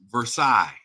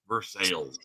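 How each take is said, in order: First: The name is said with a French pronunciation. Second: The name is said the anglicized way, 'Ver-sales'. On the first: This is the original name of the palace. "its true name is Versailles, just like the French palace" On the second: This is how the town in Kentucky says it. "It is pronounced like it is spelled"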